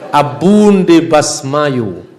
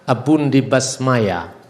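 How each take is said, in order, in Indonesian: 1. Kata terakhir berakhir dengan bunyi u. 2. Kata terakhir berakhir dengan bunyi a. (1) "Kalau tadi dibaca oleh Indro" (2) "Di dalam logat Irak yang Syria di sana"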